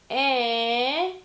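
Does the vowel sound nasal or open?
nasal. The vowel sounds strongly nasal and pinched. "very nasally by letting this close up pretty much"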